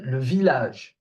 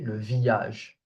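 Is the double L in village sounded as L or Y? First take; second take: L; Y. First: The double L is sounded as an L. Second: The double L is sounded as a Y. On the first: The speaker calls it right. "Here are two exceptions" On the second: The speaker calls it wrong. "We don't say le village"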